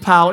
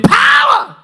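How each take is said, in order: First: The word is said flatly, without force. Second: The word is said loudly, with strong force. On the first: The speaker calls it wrong. "real remedial, just power" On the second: The speaker calls it right. "You got to say it with power. Go old school with me"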